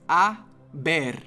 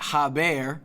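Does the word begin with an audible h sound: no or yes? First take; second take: no; yes. First: The word starts directly with the vowel. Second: The word starts with an audible h sound. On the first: The speaker calls it right. "the H in Spanish is always silent" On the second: The speaker calls it wrong. "it's not haber"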